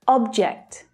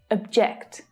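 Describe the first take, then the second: First: The stress is on the first syllable. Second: The stress is on the second syllable. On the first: It is the noun, a thing. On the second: It is the verb, to disagree.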